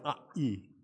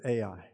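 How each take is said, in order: First: The name is said closer to the Hebrew pronunciation. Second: The name is said with a Texan pronunciation. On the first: The speaker calls it right. "It's more like A-E" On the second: The speaker calls it wrong. "in Texas, we pronounce it Ai. That is so far from the Hebrew"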